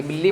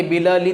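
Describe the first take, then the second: First: बिल्ली said with a held double l; doubled l. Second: बिलली said with the l sounds split apart, bil-li; wrong single l. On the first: Teacher giving the right Hindi example. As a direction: hold the l in बिल्ली. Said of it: "बिल्ली पढ़ेंगे ना". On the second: Teacher showing the wrong Hindi reading. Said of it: "इसको ऐसे थोड़ी पढ़ेंगे". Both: Shown as a demonstration.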